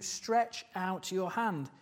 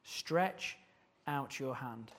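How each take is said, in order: First: "stretch out your hand" said slowly and deliberately, falling on "hand"; slow command. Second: "Stretch out your hand" said softer, with a pause after "Stretch"; quiet repeated command. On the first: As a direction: lay out the command word by word. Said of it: "focus on that command". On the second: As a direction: let the command sink in, softly and with a pause. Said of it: "Just focus on that command for a moment". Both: Shown as a demonstration.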